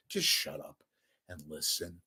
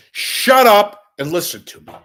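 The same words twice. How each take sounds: First: Much softer, muttered shut up and listen; softer, weary version of the demand; quiet demand. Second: Loud demand. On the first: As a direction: drop it to a low, fed-up grumble. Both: Real, not acted. Ranting at critics.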